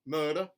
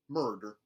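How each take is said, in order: First: The R sound is dropped. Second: The R sound is hard and strong. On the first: "a general Southern dropped R" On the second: "mountain, where the R sounds are retained, but they are hardened"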